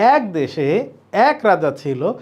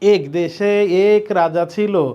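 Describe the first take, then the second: First: The vowel in 'ek' is an open e. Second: The vowel in 'ek' is a closed e. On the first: The speaker calls it right. "আমরা বলি ... এ মানে মুখ বড় হয়ে যায়" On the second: The speaker calls it wrong. "এভাবে বলি? বলি না"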